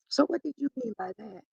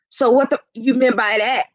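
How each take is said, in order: First: The question sounds calm and neutral without attitude. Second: The question sounds confrontational and full of attitude. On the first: The asker is open and curious about the answer. The speaker calls it right. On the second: The asker is upset and challenging the other person. The speaker calls it wrong.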